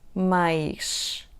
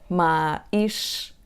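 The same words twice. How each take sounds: First: The vowels are joined smoothly by a y glide. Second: There is a short break between the two vowels. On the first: The speaker calls it right. "pronuncia-se com A aberto, má, e depois temos o som Y" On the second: The speaker calls it wrong. "Para não dizer mais, com aquela pausa entre os sons A e I"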